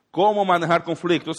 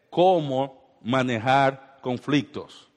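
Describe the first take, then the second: First: Said in the usual way. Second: Very slow, stretched phrase; slow emphasis. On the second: Shown as a demonstration. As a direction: announce the point slowly.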